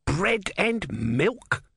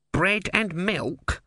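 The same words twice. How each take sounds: First: High, very drawn-out indignation; outraged shout. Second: High, drawn-out questioning offer; barman's offer. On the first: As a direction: stretch each word in offended disbelief, voice pitched up. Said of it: "shouted Om". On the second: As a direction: suggest it slowly, pitched up. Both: A narrator's reading.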